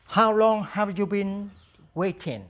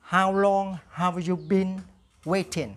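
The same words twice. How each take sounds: First: Slow, clear repeat-after-me English; slow drill model. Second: Slow, clear repeat-after-me English, same again; slow drill model. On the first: Teacher drills the question slowly for students to repeat. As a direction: say it slowly for the class to copy. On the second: Teacher repeats the drill question slowly for students. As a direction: leave room for the class to echo. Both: Shown as a demonstration. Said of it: "Now repeat after me".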